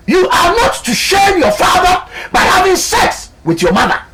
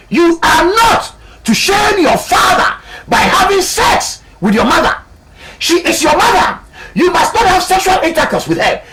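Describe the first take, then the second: First: Booming high proclamation of scripture; mock biblical prophet. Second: Mock biblical prophet. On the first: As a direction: thunder out the commandment like a prophet. Preacher proclaims God's law. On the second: Preacher proclaims God's law again.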